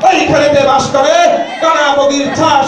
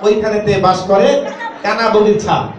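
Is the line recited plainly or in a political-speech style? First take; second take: political-speech; plain. First: It is recited in a political-speech style. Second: It is recited in a plain, ordinary way.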